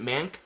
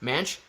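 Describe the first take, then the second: First: "Mank" ending in a hard k; hard-K pronunciation. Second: "Manch" ending like Manchester's "ch"; soft-ch pronunciation. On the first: Streamer asking viewers about the name, hard-K pronunciation. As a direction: say "Mank" with a k at the end, tentatively. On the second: Streamer guessing at the viewer's name, soft-ch pronunciation. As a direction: try "Manch" with a ch at the end, questioning. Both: Shown as a demonstration. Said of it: "how do you say that Mank part".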